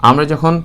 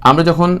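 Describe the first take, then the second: The two takes are said the same way.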